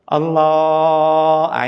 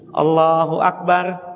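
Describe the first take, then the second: First: The phrase is drawn out long. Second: The phrase is said short and quick.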